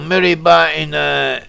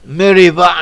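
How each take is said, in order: First: It is said with an English, spelling-based pronunciation. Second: It is said with a Hebrew pronunciation. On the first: "as it's written" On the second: "in Hebrew"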